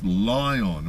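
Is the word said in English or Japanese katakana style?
English. It is said with a native English pronunciation. "because that's the way we say it"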